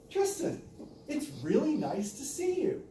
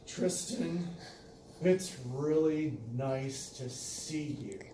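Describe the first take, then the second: First: It sounds warm and glad. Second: It sounds cold and vengeful.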